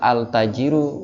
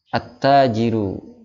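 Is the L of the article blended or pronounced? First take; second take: pronounced; blended. First: The L is pronounced before the T sound. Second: The L blends into the following T sound. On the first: The speaker calls it wrong. "al-tajiru nggak enak kan ya" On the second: The speaker calls it right. "karena enaknya itu at-tajiru"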